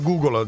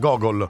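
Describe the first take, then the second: First: The word is said with a long 'oo' sound. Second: The word is said with a short 'o' sound. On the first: The speaker calls it right. "invece di Google" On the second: The speaker calls it wrong. "diceva Gogol"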